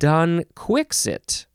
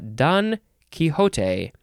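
First: The second word is said the British way. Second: The second word is said the preferred way. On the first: The speaker calls it wrong. "the chiefly British way is Don Quixit" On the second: The speaker calls it right. "I think, is the most proper way to say it"

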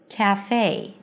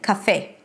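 First: The first vowel is as in 'cat' and the final vowel glides like 'day'. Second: The vowels are neutral and the final vowel stays a pure 'e'. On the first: This is the American English pronunciation. "in American English, the beginning syllable is the a as in cat... It has to close into this nice diphthong, a as in day" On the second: This is the common pronunciation in many languages. "Usually pronounced with a neutral a and e"

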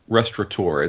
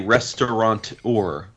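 First: No n sound is heard before the t. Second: An n sound is heard before the t. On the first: The speaker calls it right. "it's a restaurateur. There's no N" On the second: The speaker calls it wrong. "it's not a restaurateur"

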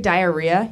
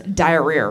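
First: The word ends plainly, with no r sound. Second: The word ends with an added r sound. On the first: "Jared doesn't say diarrhea" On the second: "it adds like an R at the end of everything"

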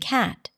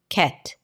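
First: The vowel is the open 'a' sound. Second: The vowel is not the open 'a' sound. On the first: The speaker calls it right. "instead of" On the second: The speaker calls it wrong. "you find yourself saying"

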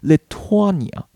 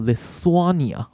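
First: The middle consonant is a hard 't' sound. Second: The middle consonant is a soft 'th' sound. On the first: The speaker calls it right. "所以这边th 念作特" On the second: The speaker calls it wrong. "我原本也以为是念作Lithuania，因为你看到这边有th"

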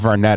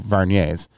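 First: The name ends with a clear 't' sound. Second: The name ends without any 't' sound. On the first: It is read the way it is spelled. The speaker calls it wrong. "I pronounced it Varnet at first because that's how it's written" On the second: It is the corrected pronunciation. The speaker calls it right. "but I was corrected. They're Varniers"

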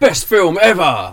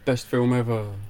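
First: It sounds hyped and enthusiastic. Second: It sounds flat and unconvinced.

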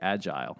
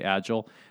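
First: The word has a British pronunciation. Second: The word has a non-British pronunciation. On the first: "the Brits say agile" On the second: "Some people say agile"

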